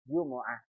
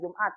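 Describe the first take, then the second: First: The word is said with three syllables. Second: The word is said with two syllables. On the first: This is the original Arabic form. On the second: This is the local borrowed form. "bahasa kita Jumat"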